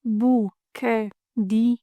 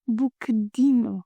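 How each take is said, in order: First: Buquedinho drawn out very slowly, every vowel full; Cinderella Portuguese. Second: Buquedinho with the middle e dropped, like bukdinho; learners' version. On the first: Teacher shows the overly careful textbook buquedinho. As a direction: spell out buquedinho syllable by syllable, slow. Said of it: "If we say it in Cinderella Portuguese". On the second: Teacher imitates how many learners say buquedinho. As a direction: say buquedinho swallowing the middle vowel. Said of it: "But a lot of you say". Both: Shown as a demonstration.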